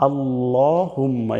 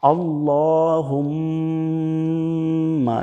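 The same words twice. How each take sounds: First: আল্লাহুম্মা with an o sound, said plainly; Bangla-style allahumma. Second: Arabic আল্লাহুম্মা; correct allahumma. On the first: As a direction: read আল্লাহুম্মা as written in Bangla. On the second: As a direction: recite আল্লাহুম্মা slowly. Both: Shown as a demonstration. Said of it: "এখানে আল্লাহুম্মা কিন্তু আমি বলি নাই".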